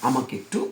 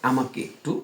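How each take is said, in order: The two takes are said the same way.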